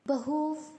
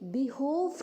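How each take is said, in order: First: The first vowel is short and reduced. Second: The first vowel is a full 'ee'. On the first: The speaker calls it right. "हमने बहोव कहा" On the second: The speaker calls it wrong. "हमने बिहोव नहीं कहा"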